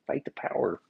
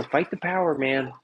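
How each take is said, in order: First: Much softer, under the breath; muttered repeat. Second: Higher, mocking slogan; mock rallying cry. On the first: Pretend. Repeating the protesters' slogan, muttered softly. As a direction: mutter it to yourself. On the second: Mocking protesters' slogan, in a higher mock rallying cry.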